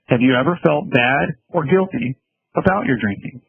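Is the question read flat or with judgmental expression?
flat. It is read in a flat, monotone voice.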